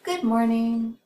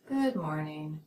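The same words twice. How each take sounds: First: The pitch starts high and falls. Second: The pitch starts low and falls. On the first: The speaker is excited. "High declining pitch signals more excitement" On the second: The speaker is less excited. "than does low declining pitch"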